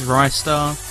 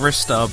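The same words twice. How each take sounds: First: The first syllable does not sound like 'wrist'. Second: The first syllable sounds like 'wrist'. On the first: "versus Ristar" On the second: "I've been saying Ristar because he uses his wrists in the game"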